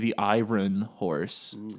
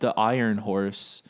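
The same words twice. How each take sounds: First: The word iron has an odd, unusual pronunciation. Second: The word iron has its ordinary pronunciation. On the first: "There's like a weird pronunciation where they say iron like that" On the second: "in Smile they say uh"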